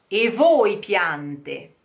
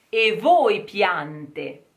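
Both takes have the same delivery.

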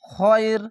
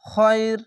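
First: The word ends on the consonant, vowel dropped. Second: The same.

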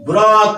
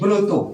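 First: The first vowel sounds like open 'aw'. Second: The first vowel sounds like 'o'. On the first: This is how the word looks when written. "কিন্তু আমরা লিখছি" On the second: This is how the word is actually spoken. "আমরা এটাকে এমন উচ্চারণ করছি"

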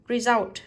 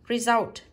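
No difference in how they are said.

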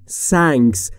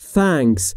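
First: The word starts with an s sound. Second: The word starts with a th sound. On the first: The speaker calls it wrong. "یا نباید بگیم" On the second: The speaker calls it right. "تلفظ درست اینه"

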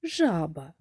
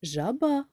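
First: The stress is on the first syllable. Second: The stress is on the second syllable. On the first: "Перший" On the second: "чи другий"

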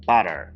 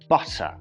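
First: The t is flapped, sounding like a d. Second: The t is crisp and clearly released. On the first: "Американці мають дивну тенденцію вимовляти букву Т як Д" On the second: "не забувайте сильніше виділяти цю «т»"

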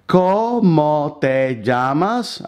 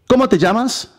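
First: It is said slowly and deliberately. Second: It is said naturally and very fast.

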